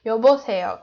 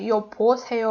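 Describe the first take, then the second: First: "여보세요" with a voiced b in the second syllable; b between vowels. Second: "여보세요" with a hard p in the second syllable; p em vez de b. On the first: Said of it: "consonant v like b". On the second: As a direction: say "여보세요" as yo-po-se-yo, middle consonant unvoiced as p. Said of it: "We don't say 여보세요 or something". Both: Shown as a demonstration.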